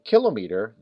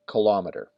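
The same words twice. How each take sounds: First: The stress is on the first syllable. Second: The stress is on the second syllable. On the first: The prefix is said the same way as in other metric units. The speaker calls it right. "instead of saying kilometer" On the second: The prefix is said differently from other metric units. The speaker calls it wrong. "they say kilometer. Very inconsistent use of the prefixes"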